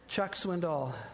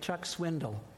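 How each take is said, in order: First: The last syllable is a full 'doll' sound. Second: The last syllable is a reduced 'dle' sound. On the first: The speaker calls it right. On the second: The speaker calls it wrong.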